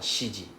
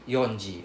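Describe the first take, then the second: First: It begins with shi, with a sh sound. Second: It begins with yon, with an n sound. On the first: "or shiji" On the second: "It's not read as yonji"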